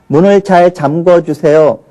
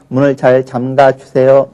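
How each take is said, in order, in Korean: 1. 이 동사는 'gwo' 소리로 끝나요. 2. 이 동사는 'ga' 소리로 끝나요. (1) "잠궈라고 하는 것은 발음도 잘못된 거고요" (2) "이렇게 발음을 한다면은 학생들이 뭐 틀릴 이유가 없겠죠"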